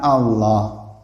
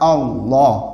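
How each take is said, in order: First: The L sound is light and thin. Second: The L sound is heavy and thick. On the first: The speaker calls it wrong. "bukan Allah" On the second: The speaker calls it right. "Kalau fathah tengah jengih tebal"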